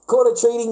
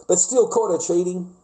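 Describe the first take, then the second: First: "Caught" hit hard, higher and a bit louder; emphatic repeat. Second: Said in the usual way. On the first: Real, not acted. A man repeating to his mate what his girlfriend did, emphatic. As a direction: punch the repeat, "Caught" up top.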